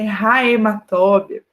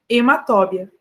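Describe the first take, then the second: First: The word begins with a breathy h sound. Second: The word begins directly with a vowel. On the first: The speaker calls it wrong. "não existe a hematóbia" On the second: The speaker calls it right. "o H inicial... é um H mudo"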